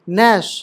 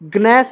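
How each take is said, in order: First: The g is silent; it starts with n. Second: The g is sounded before the n. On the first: The speaker calls it right. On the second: The speaker calls it wrong.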